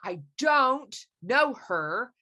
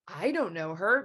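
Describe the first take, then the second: First: The word don't carries the emphasis. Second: The word I carries the emphasis. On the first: The speaker really does not know her. "I would put don't in all caps with an angry face" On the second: Someone else knows her. "means somebody else knows her"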